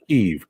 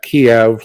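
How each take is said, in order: First: The word is pronounced like 'keev'. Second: The word is pronounced the older, taught way. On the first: The speaker calls it right. "It is Kiev, K E E V, like your second one there" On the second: The speaker calls it wrong. "It is not Kiev, like we've always, always been taught"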